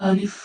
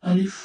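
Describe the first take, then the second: The two takes are said the same way.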